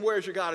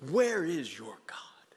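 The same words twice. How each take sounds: First: Taunting mocker. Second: Slow, breathy whispered mocker's question; whispered taunt. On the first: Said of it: "everybody's saying". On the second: Mocker taunting the struggling believer, whispered sneer. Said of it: "Mockers, yes".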